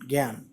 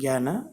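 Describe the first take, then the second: First: The word ends abruptly on the n. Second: The word ends with a vowel after the n.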